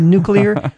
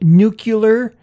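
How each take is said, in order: First: The word is pronounced 'nuclear', in standard order. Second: The word is pronounced 'nucular', with sounds swapped. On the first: The speaker calls it right. "instead of nuclear" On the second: The speaker calls it wrong. "the famous one of nuclear instead of"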